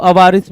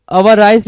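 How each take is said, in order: First: अवारिस ending in a short "-iss" sound; alternative pronunciation. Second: अवाराइस ending in a long "-ice" sound; alternative pronunciation. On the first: Teacher showing students the other reading, अवारिस ending in "-iss". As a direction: say अवारिस with its last syllable like "riss". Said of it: "अवारिस भी पढ़ते हैं". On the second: Teacher showing students another reading, अवाराइस ending in "-ice". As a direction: say अवाराइस with its last syllable rhyming with "rice". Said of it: "अवाराइस भी पढ़ते हैं कुछ लोग". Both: Shown as a demonstration.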